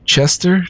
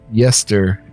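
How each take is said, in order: First: The name begins with a ch sound. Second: The name begins with a y sound. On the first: The speaker calls it wrong. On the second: The speaker calls it right. "So that's a Y"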